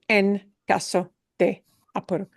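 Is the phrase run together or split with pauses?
split. The words are separated by pauses. The speaker calls it wrong. "nobody will ever separate, uh, separate into"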